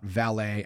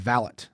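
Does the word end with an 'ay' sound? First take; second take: ay ending; no ay. First: The last syllable ends in an 'ay' sound. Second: The last syllable does not end in 'ay'. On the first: The speaker calls it wrong. "pronouncing the last syllable as A is incorrect" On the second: The speaker calls it right. "It's foyer and valet"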